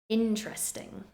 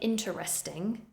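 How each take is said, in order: First: A middle syllable is dropped. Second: Every syllable is fully pronounced. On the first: The speaker calls it right. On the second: The speaker calls it wrong.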